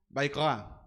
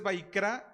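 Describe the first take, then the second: First: "Vaikra" with a guttural R; loud, throaty R in "Vaikra"; correct Hebrew pronunciation. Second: "Vaikra" with a tongue-tapped R; "Vaikra", R on the tongue, not guttural; acceptable Spanish-style variant. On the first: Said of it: "El nombre correcto para Levítico sería". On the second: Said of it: "Si dices Vaikra, está bien". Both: Shown as a demonstration.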